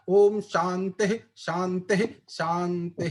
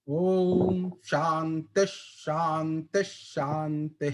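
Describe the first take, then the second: First: The sound before each shanti stays an h. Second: The sound before each shanti becomes sh. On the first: The speaker calls it wrong. "मैंने इसको ऐसा नहीं बोला" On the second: The speaker calls it right. "अगर विसर्ग के बाद श आता है तो आप उसको श बना देंगे"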